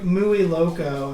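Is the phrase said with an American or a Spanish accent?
American. It is said with an American English accent. The speaker calls it wrong. "he ends up saying like"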